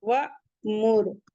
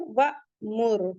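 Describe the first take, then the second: No difference in how they are said.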